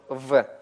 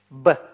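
First: The consonant is a fricative, like v. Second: The consonant is a full stop, like b. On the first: The letter has no dot inside it. "она произносится по щелевому варианту" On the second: The letter has a dot inside it. "она произносится смычно"

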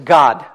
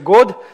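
First: The vowel sounds like an open 'a'. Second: The vowel sounds like a rounded 'o'. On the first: The speaker calls it right. "долгое «о» в американском варианте английского языка произносится как «а»" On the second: The speaker calls it wrong. "Если вы скажете «God», все поймут, что вы не умеете говорить по-английски"

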